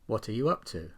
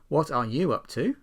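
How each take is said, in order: First: The small words are weak and reduced. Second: The small words are said in full.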